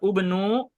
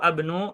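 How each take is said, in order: First: The word begins with a u vowel. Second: The word begins with an a vowel. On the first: "Bukan juga ubnu" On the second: "atau abnu"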